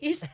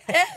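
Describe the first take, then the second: First: The vowel is a long ee sound. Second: The vowel is a short eh sound. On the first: The speaker calls it right. "East pala dapat yun" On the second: The speaker calls it wrong. "Hala, Est, East pala dapat yun"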